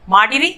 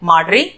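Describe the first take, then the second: First: The middle i vowel is pronounced fully. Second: The middle i vowel is dropped.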